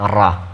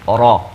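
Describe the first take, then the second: First: The r sound is light and thin. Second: The r sound is heavy and full. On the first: The speaker calls it wrong. "ڕا مەخرەجەکەیەتی تەواوە" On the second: The speaker calls it right. "ڕا نەک ڕا"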